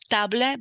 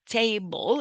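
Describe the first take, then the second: First: A vowel is sounded at the word's end. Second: No vowel is sounded at the word's end. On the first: The speaker calls it wrong. "the pronunciation is not table" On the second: The speaker calls it right. "but table, and the final A is not pronounced"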